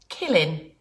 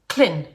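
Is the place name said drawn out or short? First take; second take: drawn out; short. First: The name is drawn out and takes longer. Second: The name is clipped short and squeezed together. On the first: This is how the visitors say it. "we say Killin. We just hang around and take a little bit longer" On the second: This is how the locals say it. "you say Clin"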